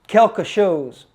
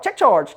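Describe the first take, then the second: First: The phrase is said in standard French. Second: The phrase sounds like English 'check charge'. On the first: The speaker calls it right. "quelque chose is the right thing" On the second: The speaker calls it wrong. "So that evolved into check charge"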